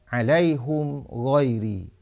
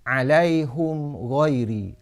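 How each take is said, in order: The two takes are said the same way.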